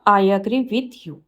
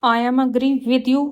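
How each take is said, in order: First: Slow, careful read of the corrected sentence; slow teacher dictation. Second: Slow, careful read of the wrong sentence; slow teacher dictation. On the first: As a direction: lay out each word clearly for the class. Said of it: "right होगा". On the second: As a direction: spell it out word by word for the class. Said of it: "wrong है". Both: Shown as a demonstration.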